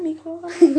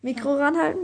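First: Louder repeat. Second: Said in the usual way. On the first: Real, not acted.

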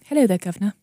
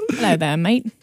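First: Mock British, second attempt after Australian; playful cockney-style British greeting; British accent. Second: Attempted British that lands Australian; playful Aussie greeting, accent on "mate". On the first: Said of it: "hear people talking British". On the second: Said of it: "That's Australian".

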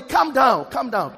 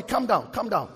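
First: Louder repeat after the first weak try; louder calm down. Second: Said in the usual way. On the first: Shown as a demonstration. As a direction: say it louder, with more energy to the neighbour. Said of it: "See the way your voice is low". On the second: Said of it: "Tell somebody".

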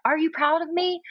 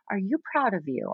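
First: Put-on much higher, eager little kid's question; child voice. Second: Said in the usual way. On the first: Mom echoing her daughter's plea, much higher. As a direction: pitch it way up like a needy child.

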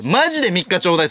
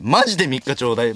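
First: More pleading repeat. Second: Said in the usual way. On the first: Shown as a demonstration. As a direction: beg for the three days with more urgency.

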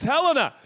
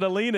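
First: Helena as "HEL-uh-nuh", high and loud; corrected Helena. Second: Helena as "huh-LEE-nuh"; mispronounced Helena. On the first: Preacher correcting guest pastors, Helena firmly as "HEL-uh-nuh". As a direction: punch the first syllable of Helena, "HEL". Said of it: "they pronounce it Helena. It's Helena". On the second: Preacher quoting guest pastors, Helena wrongly said "huh-LEE-nuh". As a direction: stress the middle of Helena as a long "LEE". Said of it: "they pronounce it Helena". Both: Shown as a demonstration.

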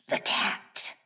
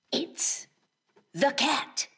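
First: Whispered sly cat line; playful burglar whisper. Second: Hushed then high sly cat voice; playful burglar whisper. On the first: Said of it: "You could call me". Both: Acted.

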